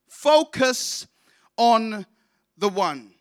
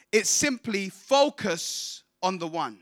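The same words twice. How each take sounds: First: "Focus" high and loud, then "on" and "the One" slowly after pauses; stress on Focus. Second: Said in the usual way. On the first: Shown as a demonstration. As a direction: spell out "Focus on the One" word by word.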